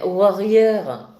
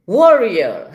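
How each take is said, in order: First: "warrior" dit à la française, lent, ouarrieur; warrior avec accent français. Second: "warrior" lancé plus fort, à l'anglaise, wo-ri-eu. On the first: ("warrior" écorché à la française, lentement) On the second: ("warrior" essayé à l'anglaise, plus fort) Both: Shown as a demonstration. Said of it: "avec mon accent".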